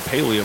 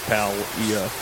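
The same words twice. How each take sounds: First: The word has an 'ee' vowel sound after the L. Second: The word has no 'ee' vowel sound after the L. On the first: The speaker calls it wrong. "some people are saying Palia" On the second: The speaker calls it right. "there's no e in there. It's just Palia"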